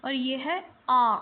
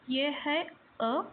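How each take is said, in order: First: आ stretched long and louder; slow louder long आ for the class; long vowel demo. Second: अ said short and slow; slow short अ for the class; short vowel demo. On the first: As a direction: hold आ long and firm. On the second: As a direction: say अ short, teacher style. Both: Shown as a demonstration. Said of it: "अलग-अलग pronounce कर रही हूँ".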